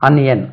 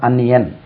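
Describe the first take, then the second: First: The word begins with a short 'a' vowel. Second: The word begins with a short 'a' vowel.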